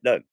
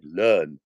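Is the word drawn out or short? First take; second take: short; drawn out. First: The word is said short and quick. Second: The word is stretched out long. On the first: The speaker calls it wrong. "I didn't say learn" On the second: The speaker calls it right. "You stretch words where necessary"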